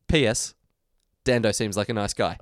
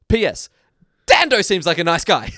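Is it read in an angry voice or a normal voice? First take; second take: normal; angry. First: It is read in a normal, friendly voice. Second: It is read in a put-on angry voice.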